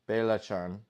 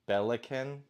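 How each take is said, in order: First: The middle consonant is a ch sound. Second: The middle consonant is a hard k sound. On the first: The speaker calls it right. "so Bela Chan is how you say it" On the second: The speaker calls it wrong. "which is obviously not right"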